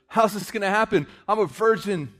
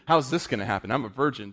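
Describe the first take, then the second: First: It is said in an amazed, wondering tone. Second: It is said in a doubting, cynical tone. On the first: The speaker believes and wonders how. The speaker calls it right. "That was" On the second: The speaker doubts it can happen. The speaker calls it wrong. "That wasn't doubt. That wasn't"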